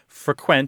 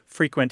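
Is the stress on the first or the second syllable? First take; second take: second; first. First: The stress is on the second syllable. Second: The stress is on the first syllable. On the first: It is a verb: to visit a place often. "Frequent has the stress on the second syllable" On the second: It is an adjective: happening often. "Frequent has the stress on the first syllable"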